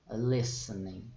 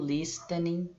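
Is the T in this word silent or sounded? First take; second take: silent; sounded. First: The T in the middle is silent. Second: The T in the middle is pronounced. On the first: The speaker calls it right. "aqui a gente não pronuncia o T nesse verbo" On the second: The speaker calls it wrong. "Não digam listening, for God's sake"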